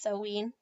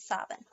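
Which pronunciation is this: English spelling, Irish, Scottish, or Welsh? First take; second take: Welsh; Scottish. First: It is said with the Welsh pronunciation. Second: It is said with the Scottish pronunciation. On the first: "Wales, it's Samhain" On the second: "And in Scotland is Samhain"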